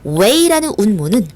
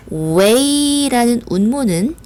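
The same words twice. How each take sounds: First: Said in the usual way. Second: 웨이 drawn out long and high; stretched 웨이. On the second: Shown as a demonstration. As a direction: stretch the vowels of 웨이 slowly before the rest. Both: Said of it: "다시".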